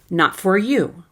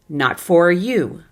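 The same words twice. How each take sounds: First: The word 'for' is fully pronounced, sounding choppy. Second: The same.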